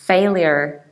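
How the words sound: It is said in an American accent. "You pronounce final R, but you still pronounce yod"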